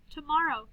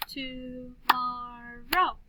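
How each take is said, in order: First: Said in the usual way. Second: TOMORROW very slowly, to-mor-row; stretched-out "To-mor-row"; clapped syllables. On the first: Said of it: "listen to these words". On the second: Shown as a demonstration. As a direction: chant "Tomorrow" in three long beats. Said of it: "then we'll clap the syllables".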